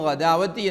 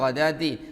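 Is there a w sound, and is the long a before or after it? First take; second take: before w; no w. First: A long a comes before a w sound. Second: There is no w sound in the middle. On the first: The speaker calls it wrong. "പിഴവാക്കി" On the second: The speaker calls it right. "ഗദാത്തി എന്നല്ലാതെ"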